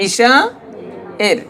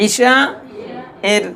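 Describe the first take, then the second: The two takes are said the same way.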